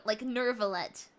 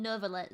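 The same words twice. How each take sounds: First: "Nervalette" with a clear American r, ner-va-lette; "Nervalette" pronounced with a rolled-in American r. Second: "Nervalette" again, quieter, still with the r; "Nervalette" murmured with a faint r; softer Nervalette. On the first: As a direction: say "Nervalette" with a hard r after the e. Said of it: "he's saying Nerva". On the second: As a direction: repeat "Nervalette" softly with the r sound. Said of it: "But it's like N". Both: Shown as a demonstration.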